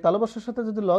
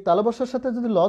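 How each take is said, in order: Both takes have the same delivery.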